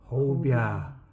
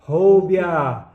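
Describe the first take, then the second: First: It is said quietly. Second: It is said at medium loudness.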